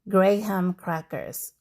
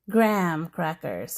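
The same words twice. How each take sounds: First: Graham is said in two syllables, gray-ham. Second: Graham is said in one single syllable. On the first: This is how it is said in the Philippines. "in the Philippines, we say Graham crackers with a clear gray ham, two syllables" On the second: This is how it is said in America. "here in America, people say Graham crackers ... Just one syllable"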